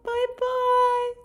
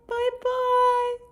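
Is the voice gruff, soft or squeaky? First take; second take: soft; soft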